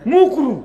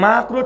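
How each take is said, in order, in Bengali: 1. প্রথম স্বরধ্বনিটি একটি গোলাকার 'u' ধ্বনি। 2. প্রথম স্বরধ্বনিটি একটি খোলা 'a' ধ্বনি। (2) "ঠিক করে বলে না"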